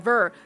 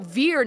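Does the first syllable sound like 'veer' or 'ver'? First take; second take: ver; veer. First: The first syllable sounds like 'ver'. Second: The first syllable sounds like 'veer'. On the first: The speaker calls it wrong. "not Ver" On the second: The speaker calls it right. "Veer, not Ver"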